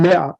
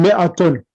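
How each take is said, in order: First: The word ends on a plain vowel. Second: The word ends with an added 'tun' sound. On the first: The speaker stops after the word. "if you're gonna stop, then mi'a" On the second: The speaker continues after the word. "If you're gonna continue, then mi'atun"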